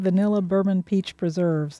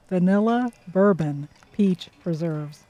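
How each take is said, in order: First: It is said at normal speed. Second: It is said slowly.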